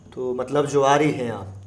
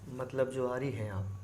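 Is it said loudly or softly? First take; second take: loudly; softly. First: It is said in a loud voice. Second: It is said in a soft voice.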